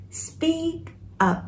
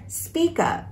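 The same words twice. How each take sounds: First: "speak up" broken by a clear pause; word-by-word "speak up", high and soft on "speak"; separate words. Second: "Speak up" joined as "spee-kup"; one-word "Speak up", high-pitched; linked words. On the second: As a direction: carry the k of "Speak" onto "up". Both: Shown as a demonstration. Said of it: "Đọc nối ha".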